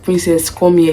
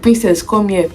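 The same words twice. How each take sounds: First: It is said calmly, not shouted. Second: It is shouted loudly.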